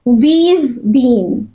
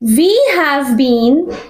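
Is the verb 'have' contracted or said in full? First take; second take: contracted; full. First: The word 'have' is shortened onto 'we'. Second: The word 'have' is said in full.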